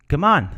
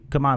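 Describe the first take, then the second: First: It sounds impatient, like urging someone faster. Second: It sounds casual, like a simple invitation. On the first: Hurry up. "hurry up" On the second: Let's leave now. "let's leave now"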